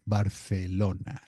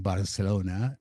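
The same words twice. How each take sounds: First: The c is not pronounced as an s. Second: The c is pronounced as an s sound. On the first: The speaker calls it right. "That is the proper pronunciation" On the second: The speaker calls it wrong. "we say Barcelona uh, with an S"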